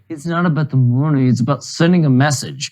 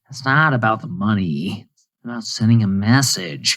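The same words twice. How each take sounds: First: It is said in his normal voice. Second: It is said in a Joker impression.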